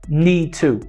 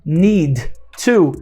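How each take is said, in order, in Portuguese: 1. O D desaparece e só se ouve o T. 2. Tanto o D quanto o T são pronunciados. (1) "esse D desaparece e a gente fala need to" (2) "Ao invés de falar need to"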